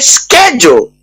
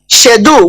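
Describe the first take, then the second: First: It is said the American way. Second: It is said in a non-American way.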